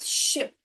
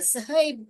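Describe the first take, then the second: First: The sh sound is blended into one syllable. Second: The letters are sounded apart in two syllables. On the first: The speaker calls it right. "ऐसे पढ़ने का इसको" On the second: The speaker calls it wrong. "अगर आप अलग अलग इसको पढ़ोगे ... जो कि गलत है"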